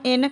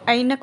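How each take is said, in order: First: The first vowel sounds like a plain 'e'. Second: The first vowel sounds like 'ai'. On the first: The speaker calls it wrong. "हम एनक नहीं बोलते" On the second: The speaker calls it right. "ऐनक बोलते हैं"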